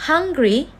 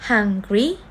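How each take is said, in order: First: Said in the usual way. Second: "hungry" split into two beats, hung-gry; syllable by syllable. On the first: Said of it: "word that have two syllable". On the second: Shown as a demonstration. Teacher showing two vowel sounds, "hungry" syllable by syllable. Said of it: "only produce two vowel sound".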